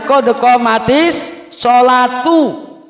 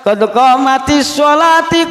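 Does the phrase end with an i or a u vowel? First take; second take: u; i. First: The last word ends in a u sound. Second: The last word ends in an i sound. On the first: The speaker calls it right. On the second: The speaker calls it wrong. "dibaca ti. Itu salah besar"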